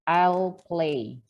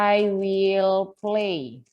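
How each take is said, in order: First: The word will is contracted onto I. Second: The word will is said in full.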